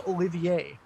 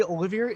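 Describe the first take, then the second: First: "Olivier" ending in AY with silent R, oh-li-vee-AY; French pronunciation. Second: "Olivier" with a sounded final R, oh-li-veer; own Dutch-style pronunciation. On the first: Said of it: "like the French actor". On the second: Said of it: "I say Olivier". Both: Shown as a demonstration.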